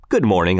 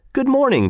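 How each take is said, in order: First: Said in the usual way. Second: Much higher, lightly voiced "Good morning" with a falling "morning"; Tell's reply. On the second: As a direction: answer "Good morning" up high as a different man. Tell replies to greeting.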